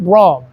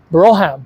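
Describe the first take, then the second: First: Brom said as a single syllable; one-syllable pronunciation. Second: Broham said as two syllables, BRO-ham; two-syllable pronunciation. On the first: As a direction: say Brom run together, with no h. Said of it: "or some people call it". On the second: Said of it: "or some people call it Brom". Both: Shown as a demonstration.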